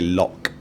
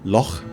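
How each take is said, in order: First: The word ends in a hard k sound. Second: The word ends in a soft ch sound. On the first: "They don't say Loch Ness Monster" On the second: "they say loch"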